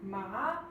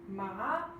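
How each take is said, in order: First: The pitch rises throughout. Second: The pitch rises throughout.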